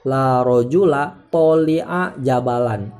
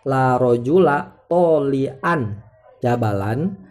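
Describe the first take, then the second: First: The word tali' ends in a short a. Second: The word tali' ends in an. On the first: The adjective is treated as indeclinable. The speaker calls it wrong. "tidak boleh kita ucapkan" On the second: The adjective is in the accusative case. The speaker calls it right. "baca nasob"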